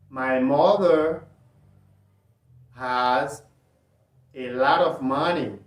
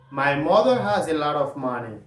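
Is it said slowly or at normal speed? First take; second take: slowly; normal speed. First: It is said slowly. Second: It is said at normal speed.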